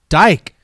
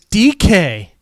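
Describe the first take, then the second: First: The name rhymes with bike, one syllable. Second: The name sounds like the letters D K. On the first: The speaker calls it wrong. "bike and like" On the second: The speaker calls it right. "No, it's D K"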